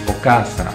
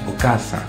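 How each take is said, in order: Both takes have the same delivery.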